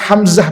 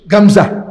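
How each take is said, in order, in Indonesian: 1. Nama itu diawali dengan bunyi H yang berembus. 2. Nama itu diawali dengan bunyi G yang keras.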